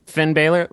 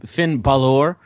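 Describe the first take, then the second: First: "Balor" said as BAY-ler; mispronounced name. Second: "Balor" said as buh-LOR; corrected name. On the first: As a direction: say "Balor" to rhyme with sailor. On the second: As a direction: stress the second syllable of "Balor", like "lore". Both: Real, not acted. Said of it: "ba-, Finn Balor".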